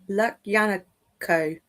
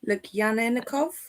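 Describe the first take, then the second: First: The name ends without a v sound. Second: The name ends with a v sound. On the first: The speaker calls it right. "There you go, I tried" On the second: The speaker calls it wrong. "No, there's no V on the end"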